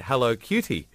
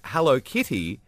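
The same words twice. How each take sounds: First: "Hello, cutie" with a clear "cutie". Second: "Hello, kitty" said in his accent, kitty close to cutie; Hello kitty in own accent. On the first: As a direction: say "Hello, cutie" as the misheard version. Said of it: "sounded like I said". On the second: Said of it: "in my accent sounded like". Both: Shown as a demonstration.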